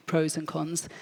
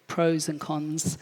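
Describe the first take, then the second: No difference in how they are said.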